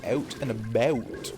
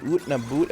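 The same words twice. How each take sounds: First: "out" said with the open American ow sound, slower. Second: "oot" said with an oo sound, Canadian style; Canadian raising. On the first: Streamer contrasts the American version, "out" with an ow sound. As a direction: say "out and about" the American way, ow not oo. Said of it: "as opposed to". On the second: Streamer demos Canadian raising to chat, "oot" with an oo sound. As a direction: say "oot and about" with the raised Canadian vowel. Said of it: "I raise my U's and I say". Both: Shown as a demonstration.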